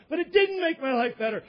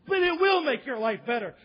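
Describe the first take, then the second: First: DIDN'T punched in protest; stress on DIDN'T. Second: WILL punched to insist; stress on WILL. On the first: Passenger rebutting stewardess, stress on DIDN'T. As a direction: lean hard on "didn't" to contradict. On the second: Stewardess insisting to the passenger, stress on WILL. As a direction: lean on "will" to contradict. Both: Acted.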